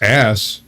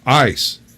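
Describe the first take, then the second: First: The vowel sounds like the one in cat. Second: The vowel sounds like the one in ice.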